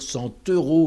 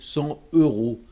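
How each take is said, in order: First: The T is linked into euros. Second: The T is silent before euros. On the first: The speaker calls it right. "il faut dire" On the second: The speaker calls it wrong. "on n'entend pas la liaison"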